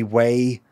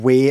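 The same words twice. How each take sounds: First: "way" with an English gliding vowel; anglicised vowel. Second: "way" with a pure Scottish vowel. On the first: Streamer mocking radio-advert speech, anglicised "way". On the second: Streamer contrasting everyday speech with ad speech, Scottish "way". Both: Shown as a demonstration. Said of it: "everything else would sound Scottish".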